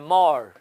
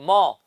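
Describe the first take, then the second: First: The r at the end is pronounced. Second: The r at the end is silent. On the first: "American इसको ऐसे पढ़ सकते हैं" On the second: "British लोग इसको ऐसे पढ़ेंगे"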